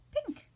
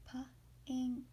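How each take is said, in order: First: Said in the usual way. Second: P-ink broken into two parts for reading; sounded out. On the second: Shown as a demonstration. Teacher helping children read a word, sounded out. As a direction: sound out P-ink, P then ink, split apart. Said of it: "can you read that one".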